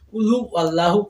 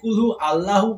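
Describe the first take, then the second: First: A 'w' sound links into 'Allahu'. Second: No 'w' sound links into 'Allahu'. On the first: The speaker calls it right. "কুল হু ওয়াল্লাহু উচ্চারণ করতে হবে" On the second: The speaker calls it wrong. "যদি কুল হু আল্লাহু উচ্চারণ করেন সেক্ষেত্রে কিন্তু হবে না"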